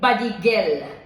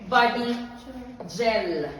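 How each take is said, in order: First: Gel starts with a hard G sound. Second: Gel starts with a J sound. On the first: The speaker calls it wrong. "you do not say it body gel" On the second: The speaker calls it right. "You call it body gel"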